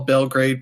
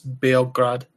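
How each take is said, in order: First: The name is said the usual English way. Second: The name is said the local way. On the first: The speaker calls it wrong. "what you might call" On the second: The speaker calls it right. "but it's"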